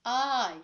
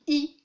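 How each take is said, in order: First: English letter I, long "eye". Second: French letter I, pure "ee". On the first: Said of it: "Là, c'est I". (I prononcé à l'anglaise, « aïe ») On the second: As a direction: say I the French way, as a punched "ee". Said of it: "en, en français". (I prononcé à la française, « i ») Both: Shown as a demonstration.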